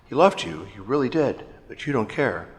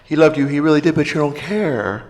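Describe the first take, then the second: First: There are short pauses between phrases. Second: It runs on with no pauses.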